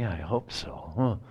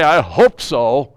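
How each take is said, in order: First: It is said in a doubtful, uncertain way. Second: It is said in a confident, assured way. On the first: The outcome is unlikely. "That sounds like 40%. That sounds like less than half" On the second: The outcome is very likely. "that sounds like 90%"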